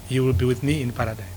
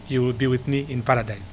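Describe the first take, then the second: No difference in how they are said.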